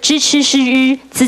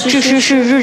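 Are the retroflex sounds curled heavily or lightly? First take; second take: lightly; heavily. First: The retroflex sounds are curled only lightly. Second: The retroflex sounds are curled very heavily. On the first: The speaker calls it right. "其实不用" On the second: The speaker calls it wrong. "其实你们的卷舌音都算太重"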